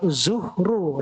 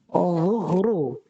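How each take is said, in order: First: It starts with a plain buzzing z sound. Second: It starts with an emphatic tongue-tip dh sound. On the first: The speaker calls it wrong. "Jangan zuhru. Nah, ini salah" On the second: The speaker calls it right. "Lidah ujungnya ditempelkan ke gigi atas"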